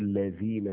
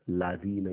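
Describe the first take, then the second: First: The first vowel is an 'e' sound. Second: The first vowel is an open 'a' sound. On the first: The speaker calls it wrong. "You don't say levina" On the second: The speaker calls it right. "you say lavina"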